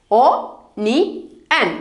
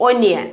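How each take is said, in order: First: "O, ni, an" as separate sounds with pauses; broken into syllables. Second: Said in the usual way. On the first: Shown as a demonstration. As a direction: sound out "O, ni, an" piece by piece. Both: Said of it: "ഓയുടെ sound O".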